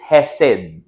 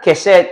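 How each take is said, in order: First: The word begins with a breathy h sound. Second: The word begins with a hard k sound. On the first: The speaker calls it right. "it's hesed" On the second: The speaker calls it wrong. "not not kesed"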